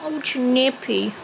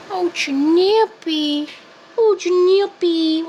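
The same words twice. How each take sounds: First: Said in the usual way. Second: Higher, slow, louder cooing of the name; cooing pet voice. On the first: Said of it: "repeated name, pet talk". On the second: Acted. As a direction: croon the cat's name lovingly. Cooing at cat.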